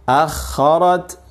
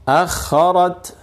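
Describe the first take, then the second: No difference in how they are said.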